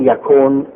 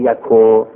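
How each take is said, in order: First: The word ends with an n sound. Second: The word ends without an n sound. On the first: "این یکون" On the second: "نمیشم گاهی میفته، این یکو"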